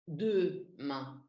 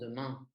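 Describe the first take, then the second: First: The first vowel sounds like a full clear E. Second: The first vowel is reduced, not a clear E. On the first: The speaker calls it wrong. "ça veut pas dire qu'on prononce E" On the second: The speaker calls it right. "on prononce demain"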